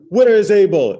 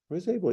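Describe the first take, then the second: First: The question sounds sharp and accusing. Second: The question sounds calm and inviting. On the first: The speaker calls it wrong. "It's not" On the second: The speaker calls it right. "read it calmly as an invitation"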